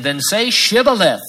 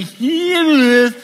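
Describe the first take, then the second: First: "Shibboleth" said correctly with a clear sh sound; correct pronunciation. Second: "Shibboleth" botched as "Sibboleth", high and drawn out slowly; mispronounced word. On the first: A guard orders the fugitive to say "Shibboleth" correctly. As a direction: say "Shibboleth" crisply with the sh. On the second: The Ephraimite fails the test word, mangling "Shibboleth" high and slowly. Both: Shown as a demonstration. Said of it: "for he could not pronounce it right".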